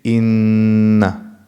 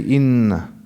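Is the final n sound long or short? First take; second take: long; short. First: The final n sound is held longer. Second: The final n sound is short. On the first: This is formal recitation. "in tajweed we say إن. It's a bit longer" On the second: This is everyday speech. "they used to say"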